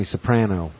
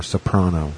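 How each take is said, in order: First: "Soprano" with middle vowel as in "pan"; Soprano with short a. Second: "Soprano" with middle vowel as in "father"; Soprano with broad a. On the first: Reading out the TV character's name, "Soprano" as so-PRAN-oh. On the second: Offering the other way to say it, "Soprano" as so-PRAH-no. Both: Shown as a demonstration. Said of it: "however you wanna say it".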